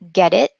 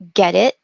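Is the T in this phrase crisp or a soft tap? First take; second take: tap; tap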